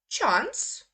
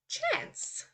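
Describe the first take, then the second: First: It is said in a British accent. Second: It is said in an American accent. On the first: "first I will say the U K pronunciation" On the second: "then I will go over to the U S pronunciation"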